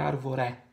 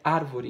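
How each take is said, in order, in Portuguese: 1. A sílaba tônica está na última sílaba. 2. A sílaba tônica está na primeira sílaba. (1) "não é arvoré" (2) "é árvore, ... proparoxítona"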